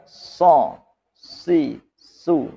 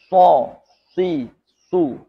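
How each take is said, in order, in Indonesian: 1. Suku kata ini diucapkan tanpa mencucu. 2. Suku kata ini diucapkan dengan bibir mencucu. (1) "Yang tidak" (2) "Yang mencucu"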